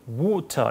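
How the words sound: It is said with a British-style vowel. "영국 사람들은 이제 ... 앞에 모음이 바뀐다 그랬어요. 그래서 water 이렇게 발음하죠"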